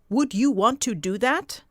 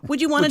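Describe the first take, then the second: First: Each word is said separately and carefully. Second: The words are run together and reduced. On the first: It sounds read aloud, not conversational. The speaker calls it wrong. "is that how you say it in conversation?" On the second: It sounds like normal conversation. The speaker calls it right. "How do we speak normally?"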